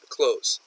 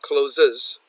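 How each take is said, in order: First: The word is said with one syllable. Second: The word is said with two syllables. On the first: The speaker calls it right. "It sounds just like close" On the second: The speaker calls it wrong. "It's not closes"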